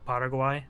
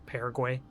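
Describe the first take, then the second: First: The name has a non-American pronunciation. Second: The name has an American pronunciation.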